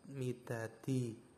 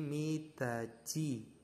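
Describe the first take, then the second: First: The consonant before the final vowel is a plain t. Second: The consonant before the final vowel sounds like ch. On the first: The speaker calls it wrong. "Kalau misalkan teman-teman belum mengenal hukum bacaan ini, maka membacanya midat, midati" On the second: The speaker calls it right. "diket ini berubah menjadi C, maka membacanya berbeda lagi. Membacanya menjadi midaci"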